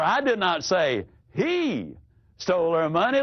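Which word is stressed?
he. The stress is on the word he.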